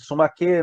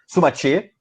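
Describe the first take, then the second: First: The consonant before the last vowel is a plain k. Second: The consonant before the last vowel is a ch sound.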